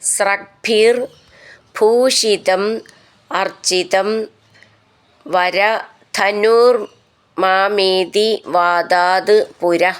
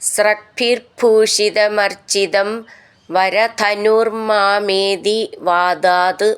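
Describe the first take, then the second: First: Each word is said apart from the next. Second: The words run together into one linked stream.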